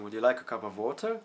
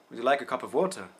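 First: The voice rises at the end. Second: The voice falls at the end. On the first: "They go up at the end" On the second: "they go down for a question"

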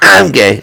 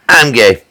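First: It is said quickly, like a can opening. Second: It is said slowly and drawn out.

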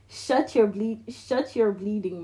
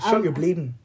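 First: The final G of bleeding is pronounced. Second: The final G of bleeding is dropped.

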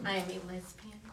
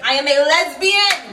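First: It is said at normal, quieter volume. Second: It is said loudly, almost shouted.

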